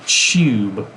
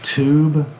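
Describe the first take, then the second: First: The t is palatalized, with a y-like glide. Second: The t is plain, not palatalized. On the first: This is how locals say it. "somebody here would say tube" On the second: This is the speaker's own accent. "I say tube ... my English, which doesn't palatalize T there"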